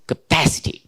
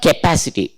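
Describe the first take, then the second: First: "capacity" starting with a short neutral "kuh"; reduced first vowel. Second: "capacity" starting with a clear "kay" sound; wrong first vowel. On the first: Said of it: "but it is capacity". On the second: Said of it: "It is not K". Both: Shown as a demonstration.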